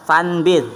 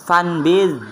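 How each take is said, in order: The two takes are said the same way.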